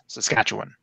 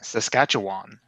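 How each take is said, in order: First: The last syllable is reduced and weak. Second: The last syllable is a full 'wan'. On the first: "it should be just Saskatchewan" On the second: "it sounds like the "wan" at the end"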